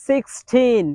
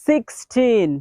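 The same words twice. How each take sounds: No difference in how they are said.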